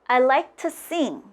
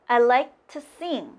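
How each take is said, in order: The two takes are said the same way.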